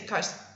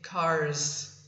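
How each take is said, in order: First: The final S sound is clipped short. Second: The final S sound is held long. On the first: The speaker calls it wrong. "I don't say cars" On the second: The speaker calls it right. "I say cars"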